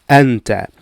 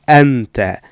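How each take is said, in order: The two takes are said the same way.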